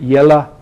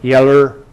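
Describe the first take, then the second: First: The final vowel is a weak uh sound. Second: The final vowel is an r-colored er sound. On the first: "in American and some English dialects you get yella" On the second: "this schwa may be regularized to er"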